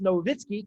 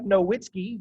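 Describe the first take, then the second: First: The W is said as a V sound. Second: The W is said as a W sound. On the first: The speaker calls it right. "it's pronounced Nowitzki because he's German" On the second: The speaker calls it wrong. "it looks like Nowitzki"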